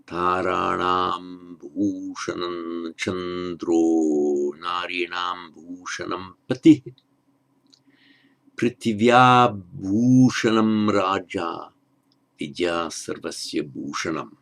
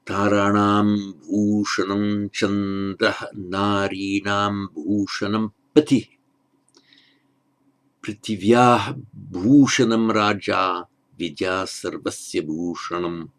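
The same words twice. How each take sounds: First: Very slow Sanskrit recitation, "chandro" ending in a long o; measured chant with "chandro" sung out on o, no final h; verse with correct sandhi. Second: Measured chant keeping the h sound at the end of "chandrah"; verse without sandhi. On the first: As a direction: intone the verse, flowing from "chandro" into "narinam" on a drawn-out o. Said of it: "Now I'll read it with the correct sandhi". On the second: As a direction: intone the verse steadily, stopping "chandrah" on ah before "narinam". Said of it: "without the sandhi as it's given". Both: Shown as a demonstration.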